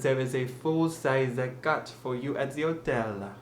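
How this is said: The H at the start of hotel is dropped.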